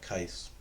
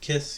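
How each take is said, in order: First: It starts with a k sound, long vowel. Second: It starts with a k sound, short i. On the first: "You cannot call it Kais. That's not real" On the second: "Some people pronounce it kiss"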